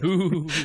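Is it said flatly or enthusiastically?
enthusiastically. It is said with more enthusiasm.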